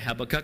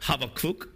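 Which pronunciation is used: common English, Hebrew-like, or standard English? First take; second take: common English; Hebrew-like. First: It uses the common popular English pronunciation. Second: It uses a Hebrew-like pronunciation. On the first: "Most of us say Habakkuk, but apparently that's the most wrong way to say it"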